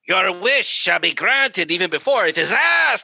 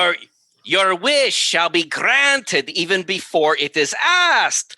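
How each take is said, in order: First: The words are spoken with loose, less clear articulation. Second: The words are spoken with crisp, careful articulation. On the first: The speaker calls it wrong. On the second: The speaker calls it right.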